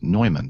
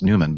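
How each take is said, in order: First: The name is said the German way. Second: The name is said the American English way. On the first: This is how the German name is originally said. "they pronounce it Neumann. So that's actually the correct pronunciation" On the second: This is how locals say the name. "we pronounce Newman"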